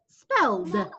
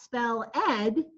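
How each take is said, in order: First: The ending is just a 'd' sound. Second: The ending is an extra syllable, 'ed'. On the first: The speaker calls it right. "It's spelled. Just like you added one letter to the end" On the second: The speaker calls it wrong. "It's not spell ed"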